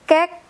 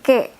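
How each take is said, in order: First: The final k sound is clearly pronounced. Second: The final k sound is left silent. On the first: The speaker calls it right. "So we have to say the K here" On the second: The speaker calls it wrong. "It's kinda weird if you say ke"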